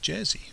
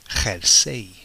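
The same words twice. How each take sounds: First: It begins with an English J sound. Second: It begins with a throaty H sound. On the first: This is how English speakers say it. The speaker calls it wrong. "they don't pronounce it jersey" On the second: This is how Spanish speakers say it. The speaker calls it right. "They pronounce it jersey"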